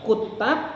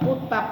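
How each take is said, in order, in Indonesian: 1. Bunyi t-nya dobel dan dibaca lebih panjang. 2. Bunyi t-nya tunggal dan dibaca pendek. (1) "Kalau kutab tasdid maknanya para penulis" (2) "Kalau kutab pendek tempat belajar"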